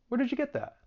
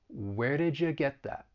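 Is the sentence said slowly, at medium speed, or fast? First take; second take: fast; slowly. First: The sentence is said fast. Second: The sentence is said slowly. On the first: "we'll get a little faster" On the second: "I'll say it slowly"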